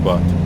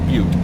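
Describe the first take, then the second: First: The word sounds like 'butt', with a short vowel. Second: The word sounds like 'beaut', with a long vowel. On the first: The speaker calls it wrong. "not Butte" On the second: The speaker calls it right. "It's Butte"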